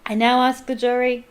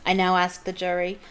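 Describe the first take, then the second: First: Loud commanding shout; loud judge's command. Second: Stern call. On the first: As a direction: shout the call to the jury. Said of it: "shouted Mister Crouch". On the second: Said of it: "speaking more loudly". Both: Acted.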